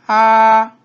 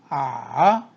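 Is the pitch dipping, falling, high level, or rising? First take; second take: high level; dipping. First: The pitch stays high and level. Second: The pitch dips low then rises.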